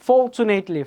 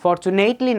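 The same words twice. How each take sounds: First: Fortunately with a long beat on for; first-syllable stress. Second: Fortunately stretched as for-tu-NATE-ly; wrong stress on nate. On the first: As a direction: stress FOR in fortunately, then fall away. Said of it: "fortunately first syllable হলো". (fortunately-র প্রথম সিলেবলে জোর) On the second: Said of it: "Fortunately না দাদু". (Fortunately-র nate অংশে ভুল জোর) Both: Shown as a demonstration.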